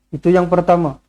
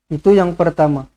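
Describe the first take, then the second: Both takes have the same delivery.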